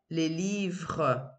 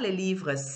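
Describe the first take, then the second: First: The final S of livres is silent. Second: The final S of livres is pronounced. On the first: The speaker calls it right. "Je mets un S, mais je ne prononce pas" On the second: The speaker calls it wrong. "pas les livres"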